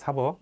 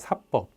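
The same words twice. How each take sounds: First: The second consonant is plain and soft. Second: The second consonant is tense and hard. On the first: It means the judicial function of law. "그때는 발음도 사법입니다" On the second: It means private law between individuals. "발음도요. 사법입니다"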